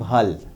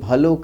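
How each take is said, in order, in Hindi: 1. शब्द व्यंजन पर खत्म होता है, अंत में कोई स्वर नहीं है। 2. शब्द का अंत 'o' स्वर से होता है। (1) "जो लोग पूर्वी क्षेत्र के हैं वो कहते हैं भल" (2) "जैसे गोपियाँ कहती हैं भलो करी ब्रज आए"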